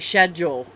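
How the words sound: The word begins with an sh sound. This is the British way of saying it. The speaker calls it wrong. "in the UK you say schedule"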